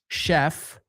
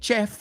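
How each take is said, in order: First: It begins with a sh sound. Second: It begins with a ch sound. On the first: The speaker calls it right. "we say sh- chef" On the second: The speaker calls it wrong. "we don't say chef"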